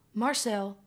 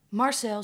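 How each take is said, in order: First: Louder falling call. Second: Louder, higher urgent call. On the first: Mo pleading with Marcel. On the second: Mo calling Marcel again with more urgency, louder. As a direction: escalate the plea. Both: Acted.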